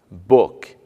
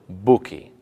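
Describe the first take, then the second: First: The word ends on its final consonant sound. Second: An extra 'ee' vowel follows the final consonant. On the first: The speaker calls it right. "e nem em palavras terminadas em consoantes" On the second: The speaker calls it wrong. "e não"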